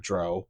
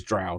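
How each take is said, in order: First: "Dro" said to rhyme with "go"; "Dro" with an oh vowel, as the mistake; wrong pronunciation. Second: "Drow" said to rhyme with "cow"; "Drow" as in "now"; correct pronunciation. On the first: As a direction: say "Dro" with a long O. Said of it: "it is Drow". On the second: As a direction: say "Drow" with an ow sound. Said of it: "not Dro". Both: Shown as a demonstration.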